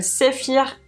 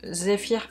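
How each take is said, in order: First: Zephyr avec un S sourd au lieu du Z; Z mal prononcé. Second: Zephyr avec un Z bien sonore; Z corrigé. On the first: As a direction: dire Zephyr comme « séfir », accent espagnol. (Zephyr prononcé « séfir », à l'espagnole) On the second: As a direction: reprendre Zephyr plus bas, en voisant le Z. (Zephyr corrigé, Z français vibrant) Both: Real, not acted. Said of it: "j'ai du mal avec la Z".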